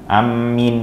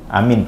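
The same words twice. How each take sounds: First: The m sound is doubled and held. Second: The first vowel is long and drawn out. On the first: The speaker calls it wrong. "yang nggak boleh ditasydid mimnya. Amin nggak boleh" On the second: The speaker calls it right. "Amin panjang"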